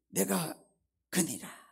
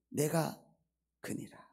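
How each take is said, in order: First: It is said in a grand, godlike voice. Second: It is said in a plain, ordinary voice. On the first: A god is speaking. "신의 음성으로" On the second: A human is speaking. "인간의 목소리로"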